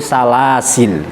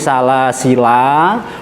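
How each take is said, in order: First: The word ends on l with no vowel. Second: The final la is said with a long vowel. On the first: "boleh kita baca sukun salasil" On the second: "boleh kita baca la panjang"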